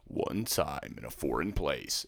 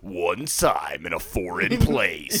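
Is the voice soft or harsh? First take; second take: soft; harsh. First: It is said in a soft voice. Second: It is said in a harsh voice.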